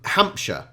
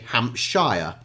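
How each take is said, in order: First: The ending is reduced and unstressed. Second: The ending is fully said and emphasized. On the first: It is how a local says it. The speaker calls it right. "I'm from the county of Hampshire" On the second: It treats the name almost as two words. The speaker calls it wrong. "the Americans would say"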